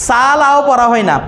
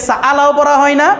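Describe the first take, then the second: The two takes are said the same way.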